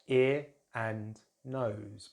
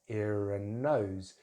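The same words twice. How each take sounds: First: The words are said separately, without a linking sound. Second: A linking r sound joins ear to and.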